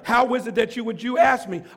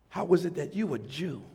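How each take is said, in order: First: It is read in a plain, neutral tone. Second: It is said in a scornful, condescending tone.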